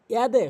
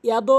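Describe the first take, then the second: First: ইয়াদে ending in an e, not o; correct pronunciation. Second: ইয়াদো ending in a rounded o; wrong pronunciation. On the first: Teacher recaps the correction, correct ইয়াদে. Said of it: "সঠিক উচ্চারণ". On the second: Teacher recaps the mistake, wrong ইয়াদো. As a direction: say ইয়াদো with o instead of e. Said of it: "এটি ভুল". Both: Shown as a demonstration.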